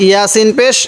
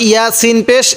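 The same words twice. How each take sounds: Both takes have the same delivery.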